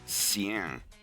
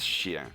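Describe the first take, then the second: First: It begins with a plain s sound. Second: It begins with a sh sound. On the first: The speaker calls it wrong. "I thought it was sien" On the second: The speaker calls it right. "but it's it's shien"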